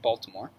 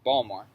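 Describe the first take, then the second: First: The T sound in the middle is pronounced. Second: The T sound in the middle is dropped. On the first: The speaker calls it wrong. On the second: The speaker calls it right.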